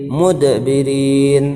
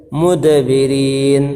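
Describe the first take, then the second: No difference in how they are said.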